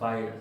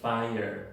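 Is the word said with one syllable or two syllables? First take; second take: one; two. First: It is said as one syllable, no schwa. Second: It is said as two syllables, with a schwa. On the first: The speaker calls it wrong. "no se pronuncia fire" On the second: The speaker calls it right. "se pronuncia fire"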